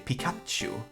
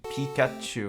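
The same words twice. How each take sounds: First: The second syllable is stressed. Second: The second syllable is not stressed. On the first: "You stress that uh, second syllable" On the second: "here you don't say Pi Pikachu or whatever"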